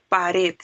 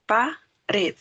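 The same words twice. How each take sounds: First: "pared" said as one word, leaning on "red"; stress on the last syllable. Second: "pared" split as pa... red, pause between the syllables; syllable-by-syllable stress. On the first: Teacher gives an example of an aguda word, final-syllable stress. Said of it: "la palabra pared lleva una intensidad". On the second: Teacher shows the class the last syllable, "pared" broken up. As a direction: break "pared" in two and land on "red". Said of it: "lleva una intensidad en la última". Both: Shown as a demonstration.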